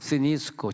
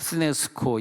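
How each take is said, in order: First: The second vowel sounds like 'ee'. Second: The second vowel sounds like 'eh'. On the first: This is how it is pronounced in Greece today. "지금 그리스 가면은 스니스코, 그렇게 스니스코 발음합니다" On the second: This is how it was pronounced in ancient times. "원래 이게 그 스네스코"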